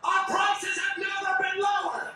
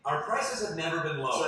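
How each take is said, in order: First: It is shouted loudly. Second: It is said at normal volume.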